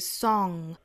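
The vowel is said with a British accent. "英式发法是 song"

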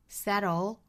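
The t is a quick flap before the l. "美式发法呢我们要注意它其实就是一个 flap t 的感觉了"

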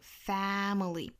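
The first vowel is spread wide with lips apart. "美式的话呢是左右开口度最大的一个 family"

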